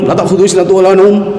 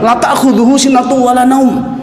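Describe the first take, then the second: First: It is recited too quickly. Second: It is recited at a measured pace. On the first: Drowsiness and sleep surely overtake God. The speaker calls it wrong. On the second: Drowsiness and sleep do not overtake God. The speaker calls it right.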